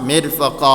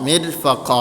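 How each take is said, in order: No difference in how they are said.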